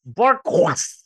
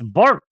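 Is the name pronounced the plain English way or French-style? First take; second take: French; English. First: The name is said with a mock French ending. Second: The name is said plainly, like English 'bark'. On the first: "What is it, French now?" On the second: "It's bark"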